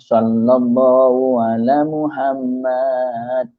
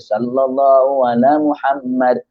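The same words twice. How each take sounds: First: A vowel in the phrase is stretched out long. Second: The vowel is cut short without stretching. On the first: The speaker calls it wrong. "berselawat dalam dalam keadaan memanjangkan mat itu" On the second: The speaker calls it right. "Dia tak payah panjang, mati tu di situ je"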